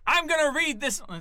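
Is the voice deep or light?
light. The voice is lighter, without much bass. The speaker calls it wrong. "No, no, no. Put some bass in that voice"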